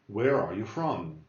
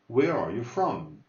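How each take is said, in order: Both takes have the same delivery.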